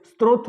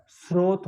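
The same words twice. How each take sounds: First: स्रोत with an inserted t: "strot"; स्रोत with "str" at the start; mistaken pronunciation. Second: स्रोत with s straight into r: "srot"; स्रोत with clean "sr" start; correct pronunciation. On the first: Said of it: "स्रोत थोड़ी होता है". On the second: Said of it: "स्रोत होता है". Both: Shown as a demonstration.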